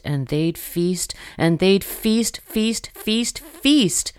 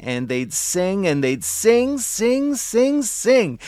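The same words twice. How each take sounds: First: Rising repeats. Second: Each sing higher than the last; rising pitch each repeat. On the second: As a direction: climb up on every sing. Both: A narrator's reading.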